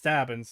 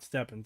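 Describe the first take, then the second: First: The first vowel sounds like the one in 'cat'. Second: The first vowel sounds like the one in 'bed'. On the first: The speaker calls it right. "It's Stabbins. It's an A" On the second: The speaker calls it wrong. "It's not Stebbins. not an E"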